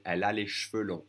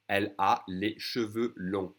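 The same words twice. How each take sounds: First: Cheveux squeezed to one syllable "shveu"; faster, dropped E. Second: Slow, cheveux in two full syllables "sheu-veu"; careful full pronunciation. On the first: Teacher showing the quicker version to learners, dropped E. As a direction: say cheveux without its first E. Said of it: "I'm gonna drop that E". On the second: Teacher modelling long hair for learners, careful full pronunciation. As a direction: sound the first E in cheveux. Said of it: "if I say it faster, I'm gonna drop that E". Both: Shown as a demonstration.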